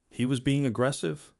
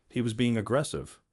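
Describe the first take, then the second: First: AGGRESSIVE lifted in a rising question; incredulous echo question. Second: Said in the usual way. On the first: A narrator's reading. Judge throws her claim back, "aggressive" rising in disbelief.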